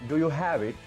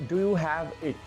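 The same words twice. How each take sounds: The two takes are said the same way.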